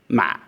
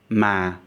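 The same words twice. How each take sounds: First: The syllable is heavy and constricted in the throat. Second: The pitch falls over the syllable. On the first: It means a rice seedling. "A heavy or constricted tone" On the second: It means butt. "As a falling tone"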